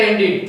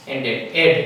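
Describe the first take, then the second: First: એન્ડિડ with a clear final id; correct ended. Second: એન્ડેડ with a flat final ed; everyday ended. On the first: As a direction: say એન્ડિડ, ending in id. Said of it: "એનો સાચો ઉચ્ચાર એન્ડિડ થાય છે". (સાચો ઉચ્ચાર એન્ડિડ) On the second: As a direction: say એન્ડેડ the usual way, ending in ed. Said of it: "પરંતુ આપણે બોલીએ છીએ". (રોજિંદો ઉચ્ચાર એન્ડેડ) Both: Shown as a demonstration.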